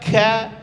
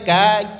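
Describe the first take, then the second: First: The k has a strong puff of breath. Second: The k has only a light puff of breath. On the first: The speaker calls it wrong. "jangan dibaca ka" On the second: The speaker calls it right. "Biasa saja ka"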